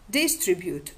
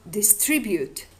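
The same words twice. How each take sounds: First: "distribute" stressed on DIS; stress on first syllable. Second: "distribute" stressed on TRIB; stress on second syllable. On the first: Lecturer giving an example of variation, "distribute" stressed on the first syllable. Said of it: "The stress on the initial syllable". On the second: Lecturer giving the other variant, "distribute" stressed on the second syllable. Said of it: "or the stress on the second syllable". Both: Shown as a demonstration.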